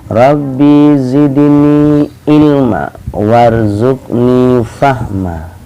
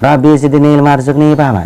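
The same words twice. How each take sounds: First: It is recited slowly and calmly. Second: It is recited quickly and harshly. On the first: It is a humble request to God. The speaker calls it right. "Dibaca dengan tenang dan pelan" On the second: It sounds like scolding rather than praying. The speaker calls it wrong. "jangan kayak gitu. Itu artinya kita bukan berdoa, kita marah-marah"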